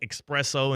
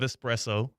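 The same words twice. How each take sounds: First: The word begins with an 'ex' sound. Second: The word begins with a plain 'es' sound. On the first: The speaker calls it wrong. "I don't say them in the proper way, like espresso" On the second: The speaker calls it right. "instead of espresso"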